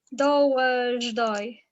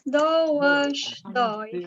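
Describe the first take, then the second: First: The linking sound is a 'j' sound. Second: The linking sound is a 'sh' sound.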